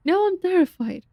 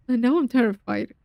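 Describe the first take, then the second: First: Higher, lightly voiced character read; a hint of a frightened game character; character line. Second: Said in the usual way. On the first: Shown as a demonstration.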